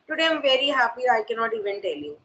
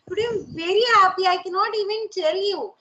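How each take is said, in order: First: It is said plainly, without emotion. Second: It is said with emotion and pitch movement.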